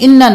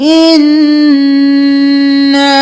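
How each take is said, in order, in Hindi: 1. अंतिम स्वर छोटा बोला जाता है। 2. अंतिम स्वर लंबा खींचकर बोला जाता है। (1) "नहीं करना" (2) "अलिफ मद्दा है खींचेंगे"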